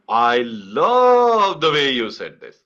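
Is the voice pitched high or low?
high. The voice is pitched higher throughout.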